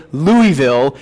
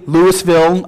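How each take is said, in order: First: Louisville said as loo-ee-ville, three syllables; Louisville pronounced loo-ee-ville, the other wrong way; wrong pronunciation. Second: Louisville said as loo-iss-ville, every syllable sounded; Louisville as a northerner says it; wrong pronunciation. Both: Shown as a demonstration. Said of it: "you'll notice I said that right".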